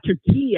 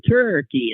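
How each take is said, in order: First: The name is said with Turkish sounds. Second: The name is said with English sounds. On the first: This is the country's own name. "their real name" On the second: This is the English version of the name. "anglicized to"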